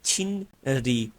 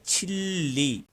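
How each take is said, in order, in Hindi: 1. बीच वाली आवाज़ n और फिर r जैसी होती है। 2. बीच वाली आवाज़ डबल l जैसी होती है। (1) "लफ्ज है छिन री" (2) "जब हम कोरियन की तरह इसको प्रोनाउंस करेंगे तो ये बोला जाएगा छिल्ली"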